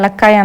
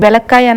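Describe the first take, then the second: First: The word begins with a vowel sound. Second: The word begins with a v sound. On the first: This is how the speaker has said it since childhood. "చిన్నప్పటి నుంచి నేను దీన్ని ఎలక్కాయ అని పిలవడమే అలవాటు" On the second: This is how the market sellers say it. "Market లో వెలక్కాయ వెలక్కాయ అంటారు"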